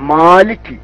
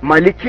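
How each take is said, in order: First: The first vowel is long. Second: The first vowel is short. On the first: The speaker calls it right. "അസ്ലിയായ മദ് മാത്രമേ അവിടെ ഉള്ളൂ" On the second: The speaker calls it wrong. "മലിക്കി അല്ല"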